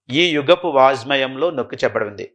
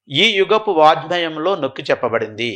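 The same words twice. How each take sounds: First: Said in the usual way. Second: Slow, word by word for note-taking; slow dictation. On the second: Shown as a demonstration. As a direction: dictate it slowly so students can write it down. (Notes రాసుకునేలా నెమ్మదిగా చెప్పడం) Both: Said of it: "ఆ point రాసుకోవాలి".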